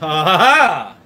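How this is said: It is said imitating the Count's voice.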